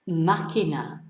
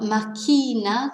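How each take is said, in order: First: The stress is on the first syllable. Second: The stress is on the second syllable. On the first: The speaker calls it right. "tells us to stress the first syllable" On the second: The speaker calls it wrong. "it's not máquina. That would be ... with the stress on the penultimate syllable"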